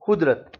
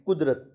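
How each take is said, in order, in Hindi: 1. यह खुरदरी kh की आवाज़ से शुरू होता है। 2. यह गहरी, पिछली q की आवाज़ से शुरू होता है। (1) "ये कुदरत को पढ़ेंगे कैसे?" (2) "हम लिखते हैं कुदरत"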